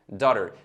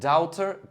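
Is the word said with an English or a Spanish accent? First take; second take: English; Spanish. First: It is said with an English accent. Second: It is said with a Spanish accent. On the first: "Se dice daughter"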